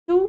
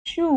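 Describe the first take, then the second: First: "चू" with a short u; "चू" said with a brief oo; short vowel. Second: "चू" with a long oo; "चू" held on a drawn-out oo; long vowel. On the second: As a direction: stretch the vowel of "चू". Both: Shown as a demonstration. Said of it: "आपको बारह खड़ी".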